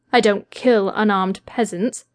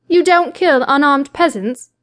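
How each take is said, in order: First: Said in the usual way. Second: Scornful disbelief. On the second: A narrator's reading. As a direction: throw his words back with contempt. She throws his words back scornfully.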